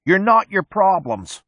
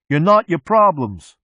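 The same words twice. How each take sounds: First: Shouting. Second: High, slow, loud yell. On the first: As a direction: pick up the chant from the back seat. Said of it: "A space monkey in the back seat picks it up". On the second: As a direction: echo the chant even louder. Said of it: "Mechanic yells". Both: A narrator's reading.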